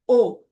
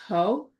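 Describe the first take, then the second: First: The word begins directly with the vowel. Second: The word begins with a breathy H sound. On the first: The speaker calls it wrong. "without the H" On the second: The speaker calls it right. "you have to breathe to say the H sound"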